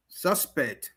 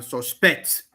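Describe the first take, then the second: First: "Suspect" stressed on SUS; SUS-pect, first syllable stressed; noun stress. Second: "suspect" stressed on SPECT; sus-PECT, second syllable stressed; verb stress. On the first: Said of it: "stress on the first syllable". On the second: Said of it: "stress on the second syllable". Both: Shown as a demonstration.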